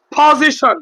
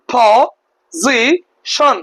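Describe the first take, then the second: First: Said in the usual way. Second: position in three separate beats, po-zi-shon; position very slowly, a gap after each syllable. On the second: Shown as a demonstration. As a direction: break position into three slow syllables with pauses. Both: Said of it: "তিনটা অংশে ভাগ করে বলতে পারলাম".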